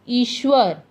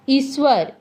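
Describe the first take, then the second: First: The middle consonant is a palatal 'sh' sound. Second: The middle consonant is a dental 's' sound. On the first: The speaker calls it right. "आधा तलवश्य तालवश्य व र" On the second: The speaker calls it wrong. "ये उच्चारण ठीक नहीं है।"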